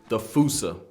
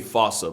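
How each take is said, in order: First: The word is not pronounced as it is spelled. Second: The word is pronounced as it is spelled. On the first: This is the familiar pronunciation from childhood. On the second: This is probably the actual pronunciation.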